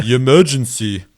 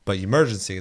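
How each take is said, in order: First: Quick playful echo of the emergency alarm. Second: Said in the usual way. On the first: Shown as a demonstration. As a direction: mimic the alarm's recorded call with a laugh.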